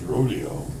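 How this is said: It is said with an American pronunciation. "the Americanized version is rodeo"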